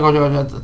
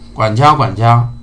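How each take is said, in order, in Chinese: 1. 这句话说得快。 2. 这句话说得慢。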